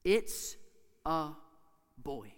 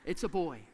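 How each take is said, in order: First: Put-on "It's... a... boy", a long pause after each word; suspenseful gaps between "It's", "a" and "boy"; word-by-word reveal. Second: Said in the usual way. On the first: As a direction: announce "It's a boy" one word at a time.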